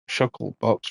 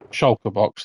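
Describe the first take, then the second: First: The first word is said shuckle, k before l. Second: The first word is said shulker, l before k. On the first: The speaker calls it wrong. "I always keep saying sh- shuckle box" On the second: The speaker calls it right. "there we go"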